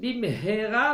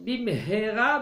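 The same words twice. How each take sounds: First: A breathy h sound is heard mid-word. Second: A breathy h sound is heard mid-word.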